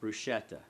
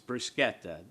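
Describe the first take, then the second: First: The middle consonant is said as sh. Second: The middle consonant is said as sk. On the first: The speaker calls it wrong. "I hear oftentimes in restaurants bruschetta" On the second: The speaker calls it right. "It's bruschetta. S C H is, is pronounced sk"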